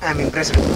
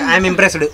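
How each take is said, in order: First: It is said shyly and softly. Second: It is said loudly and firmly.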